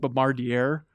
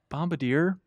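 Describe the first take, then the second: First: The word is pronounced as it is spelled. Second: The word has its standard pronunciation. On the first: The speaker calls it wrong. "I constantly read as" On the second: The speaker calls it right. "I'm still gonna botch it"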